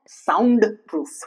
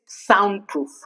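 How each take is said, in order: First: The D sound is pronounced. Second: The D sound is silent. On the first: The speaker calls it wrong. "It's not soundproof" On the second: The speaker calls it right. "It's soundproof"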